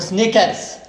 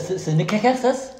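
First: No vowel follows the first s-sound. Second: An extra vowel follows the first s-sound. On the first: The speaker calls it right. "اسمه سنيكرز" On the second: The speaker calls it wrong. "اسمه كذا سينيكرز؟"

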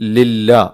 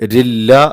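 First: The word begins with a clear l sound. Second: The word begins with an r sound. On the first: The speaker calls it right. "ആ ലാമ് വ്യക്തമാക്കി തന്നെ ഉച്ചരിക്കണം" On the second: The speaker calls it wrong. "ലാമിന് പകരം റാ ആക്കി ചിലർ ഓതുന്നുണ്ട്"

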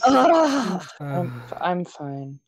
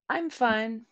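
First: It sounds upset and disappointed. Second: It sounds relaxed and honest. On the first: The speaker is hiding disappointment to avoid conflict. "like a I am so disappointed in you, but I can't even express it right now" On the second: The speaker is genuinely okay. "generally like an honest, nah, I'm fine. Don't worry about it"

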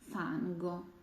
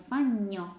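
First: The middle sound is a hard 'ng-g'. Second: The middle sound is a soft palatal 'ny'. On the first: The speaker calls it right. "NG маємо звук твердий" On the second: The speaker calls it wrong. "не фанньо, бо там GN дає м'ягесенький звук"

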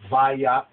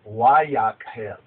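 First: The word begins with a v sound. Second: The word begins with a w sound. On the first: The speaker calls it wrong. "it's called Vayakhel" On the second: This is the older, more original way of saying it. The speaker calls it right. "the more correct pronunciation is Vayakhel"

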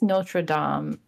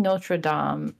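First: It is pronounced with a French-style pronunciation. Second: The same.

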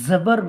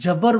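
First: The word begins with a z sound. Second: The word begins with a j sound. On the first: The speaker calls it right. "তাহলে আমরা এটা জবর বলবো" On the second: The speaker calls it wrong. "জবরকে যেন জবর জিম দিয়ে না পড়ে ... জবর বলবো না"

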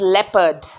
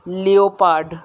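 First: It begins with 'leh' and ends in 'perd'. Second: It begins with 'lee-o' and ends in 'pard'. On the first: The speaker calls it right. "It is लेपर्ड" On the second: The speaker calls it wrong. "Which is wrong"

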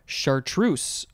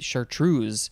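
First: The final consonant is an S sound. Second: The final consonant is a Z sound. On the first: "that S sound" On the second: "or you could make that S sound a Z"

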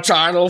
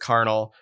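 First: The word begins with a soft CH sound. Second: The word begins with a hard K sound. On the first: The speaker calls it wrong. "I've heard people call it the charnel throne. And I'm like, that sounds so dumb" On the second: The speaker calls it right. "this has got to be a hard C"

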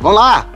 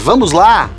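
First: The phrase is reduced and slurred together. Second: The phrase is pronounced fully and distinctly. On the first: The speaker calls it wrong. "não pode ser" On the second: The speaker calls it right. "tem que ser"

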